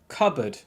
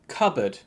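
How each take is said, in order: The two takes are said the same way.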